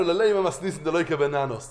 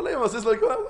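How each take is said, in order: First: Measured, invested retelling of a troubling passage; mildly troubled quote; pained, involved. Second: Quick, offhand mock recital; imitated indifference, hurried; unbothered. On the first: Retold or imitated. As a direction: take the passage personally, unhurried. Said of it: "זה כאב לנו". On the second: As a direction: rattle off the passage without caring. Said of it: "הכל טוב".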